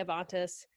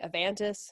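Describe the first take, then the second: First: Avantis with middle vowel as in "father"; broad A in Avantis. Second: Avantis with middle vowel as in "van"; short A in Avantis. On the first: Showing the other accepted way to say the board's name, Avantis as "uh-VAHN-tis". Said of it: "some people say". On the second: Showing one accepted way to say the board's name, Avantis as "uh-VAN-tis". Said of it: "Some people call". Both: Shown as a demonstration.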